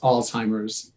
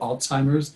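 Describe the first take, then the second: First: The first syllable ends with a z sound. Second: The first syllable ends with a ts sound. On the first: This is how almost everyone says it. "the common pronunciation is just A L Z, like Alz" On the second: This is how people on the East Coast say it. "I tend to hear it like an Alts, A L T Z"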